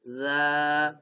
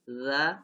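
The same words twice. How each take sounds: First: The vowel is drawn out long. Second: The vowel is short.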